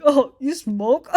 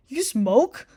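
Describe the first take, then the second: First: Slow, drawn-out coy question; mock coy. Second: Said in the usual way. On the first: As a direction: imitate someone being coy. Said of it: "don't fucking be coy". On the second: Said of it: "be like".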